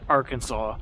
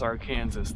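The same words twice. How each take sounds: First: The word ends in a 'saw' sound. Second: The word ends in a 'zas' sound. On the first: It names the state. "they say the state of Arkansas like" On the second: It names the river. "they say the Arkansas River is"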